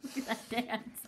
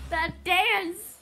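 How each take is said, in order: First: Hushed. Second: "dance" punched louder and higher; stressed. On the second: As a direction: lean hard on "dance". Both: Acted.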